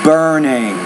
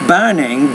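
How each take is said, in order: First: The R sound is clearly pronounced. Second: The R sound is weak or dropped. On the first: The speaker calls it right. "but burning" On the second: The speaker calls it wrong. "it's not burning"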